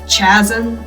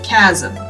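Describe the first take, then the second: First: The word begins with a ch sound. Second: The word begins with a k sound. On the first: The speaker calls it wrong. "pronouncing the C H as chasm" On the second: The speaker calls it right. "instead of chasm"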